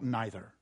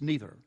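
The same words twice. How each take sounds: First: The first vowel sounds like 'eye'. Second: The first vowel sounds like 'ee'. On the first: The speaker calls it wrong. "not neither" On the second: The speaker calls it right. "that's the correct pronunciation. ... Because the E comes first"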